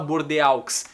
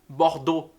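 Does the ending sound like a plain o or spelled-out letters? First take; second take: spelled letters; plain o. First: The ending letters are sounded out individually. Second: The ending is a single plain o sound. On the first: The speaker calls it wrong. "Não se fala Bordeaux" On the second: The speaker calls it right. "se fala Bordeaux"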